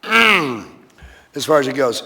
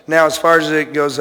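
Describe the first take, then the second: First: Very slow, drawn-out restart after clearing throat. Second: Said in the usual way. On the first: Shown as a demonstration. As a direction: stretch each word, slowly and deliberately. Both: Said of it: "nice and slow this time around".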